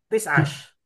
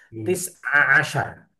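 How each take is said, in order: First: The word is clipped, ending in -ash. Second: The word is said in full, ending in -ashar. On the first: This is the colloquial form. "Kalau yang Amiyah" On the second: This is the standard form. "itu kan susah"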